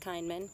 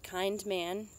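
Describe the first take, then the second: First: The two words are run together quickly. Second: The two words are said slowly and separately. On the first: "but we say it fast" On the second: "like kind man"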